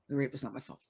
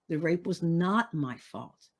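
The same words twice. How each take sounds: First: It is said flatly, without feeling. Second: It is said with strong emphasis and feeling.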